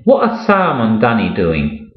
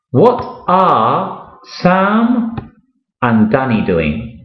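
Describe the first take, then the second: First: Said in the usual way. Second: Slow model question. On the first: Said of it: "teacher repeats at normal speed". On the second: Shown as a demonstration. Teacher modelling the question slowly for a beginner, stretched out. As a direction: drag each word for the learner to follow. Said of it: "teacher models question slowly".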